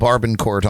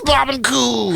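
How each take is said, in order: First: The name is said with clear r sounds. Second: The name is said without any r sounds. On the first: The speaker calls it wrong. "I was pronouncing it wrong all these years" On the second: The speaker calls it right. "It is Babaku"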